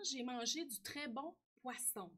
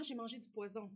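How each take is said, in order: First: "poisson" with a hissed s in the middle. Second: "poison" with a buzzed z in the middle. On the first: Child texting grandma, "poisson" with a crisp s sound. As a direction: say "poisson" with a clear unvoiced s sound, pwa-sson. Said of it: "Au lieu de ça, d'écrire poisson". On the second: Misspelled text to grandma, "poison" with a z sound. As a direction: say "poison" with a voiced z sound, pwa-zon. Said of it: "si je fais le contraire". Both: Shown as a demonstration.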